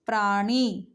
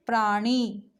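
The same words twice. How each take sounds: The two takes are said the same way.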